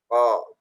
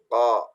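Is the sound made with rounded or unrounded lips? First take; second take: unrounded; unrounded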